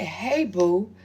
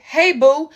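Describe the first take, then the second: First: Mocking read-out. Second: Flirty read-out. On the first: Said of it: "Then she said". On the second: Retold or imitated. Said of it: "The message say".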